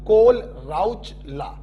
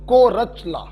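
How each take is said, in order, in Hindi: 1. नाम L की ध्वनि के साथ बोला जाता है। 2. नाम बिना किसी L की ध्वनि के बोला जाता है। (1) "अगर सिर्फ H को साइलेंट किया तो" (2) "अगर H और L साइलेंट कर दिया तो"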